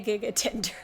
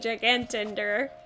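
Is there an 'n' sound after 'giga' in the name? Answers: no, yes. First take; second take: no; yes. First: It is said with no 'n' after 'giga'. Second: It is said with an 'n' after 'giga'. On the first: The speaker calls it wrong. "My brain wants me to say gigatender" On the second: The speaker calls it right. "even though it's probably gigantender"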